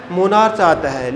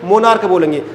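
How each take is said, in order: First: मोनार्च said with a ch sound at the end; wrong pronunciation. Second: मोनार्क ending in a hard k; right pronunciation. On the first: Teacher showing students the misreading मोनार्च with ch. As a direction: pronounce मोनार्च ending in ch, the mistaken way. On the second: Teacher telling students the correct मोनार्क with k. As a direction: say मोनार्क with a k at the end. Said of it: "क्या बोलेंगे इसको". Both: Shown as a demonstration.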